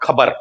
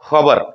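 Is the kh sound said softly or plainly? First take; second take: plainly; softly. First: The kh sound is said plainly, without nukta. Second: The kh sound is said softly, nukta style. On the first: The speaker calls it wrong. "Not खबर" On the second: The speaker calls it right. "उसके नीचे आगे नुक्ता लगेगा, that is खबर"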